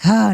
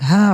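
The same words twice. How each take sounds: First: It is said as a low growl. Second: It is said as a breathy sigh. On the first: "that kind of growl of like" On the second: "that sigh of like"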